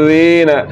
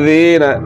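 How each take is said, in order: No difference in how they are said.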